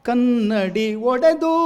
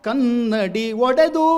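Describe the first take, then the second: No difference in how they are said.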